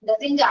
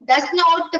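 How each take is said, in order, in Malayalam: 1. ഇത് ഒറ്റ സങ്കോചിത വാക്കായാണ് പറയുന്നത്. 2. ഇത് രണ്ട് പൂർണ വാക്കുകളായാണ് പറയുന്നത്. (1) "ഡസിന്റ് ആണ്" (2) "പറയണ്ട"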